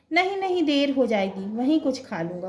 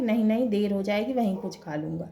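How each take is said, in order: First: A son in a hurry, waving off food; hasty refusal. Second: Said in the usual way. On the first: Acted. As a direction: blurt out "नहीं, नहीं" pitched up, in a rush to leave. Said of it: "Kuldeep". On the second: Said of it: "वो कहने लगा कि".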